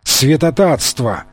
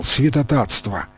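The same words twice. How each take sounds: First: Slower, drawn-out lament; slow plaintive moan. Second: Soft, plaintive lament; plaintive moan. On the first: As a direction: drag it out in grief. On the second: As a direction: lament it quietly. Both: A narrator's reading. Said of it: "жрец жалобно застонал".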